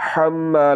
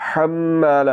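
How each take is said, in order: Both takes have the same delivery.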